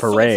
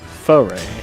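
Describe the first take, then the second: First: The stress is on the second syllable. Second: The stress is on the first syllable. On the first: "I've always heard" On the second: "You put emphasis on the first syllable?"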